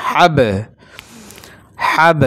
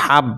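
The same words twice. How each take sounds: First: হাব louder, with the b released in a short echo; qalqala bounce. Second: হাব closed dead on the b; no bounce. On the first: Teacher shows the rule, হাব with a pushed, bouncing final b. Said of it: "অর্থাৎ ধাক্কা মারতে হবে". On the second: Teacher shows the wrong way, b of হাব left without bounce. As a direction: stop হাব on shut lips, no release. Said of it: "এভাবে না". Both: Shown as a demonstration.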